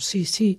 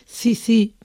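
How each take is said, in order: First: The 's' is said as an s sound. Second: The 's' is said as a th sound. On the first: This is the distinguishing standard pronunciation. "por sí" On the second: This is the ceceo pronunciation of parts of Andalusia. "la realizan como C"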